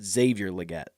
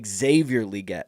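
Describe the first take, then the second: First: The first syllable of Leggett sounds like leg. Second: The first syllable of Leggett rhymes with league. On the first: The speaker calls it wrong. "not leg" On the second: The speaker calls it right. "It's Leggett, like the N F L ... National Football League"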